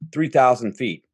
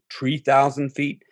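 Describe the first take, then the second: First: The first word starts with a th sound. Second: The first word starts with a t sound. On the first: The speaker calls it wrong. "he says" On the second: The speaker calls it right. "three is tree niner"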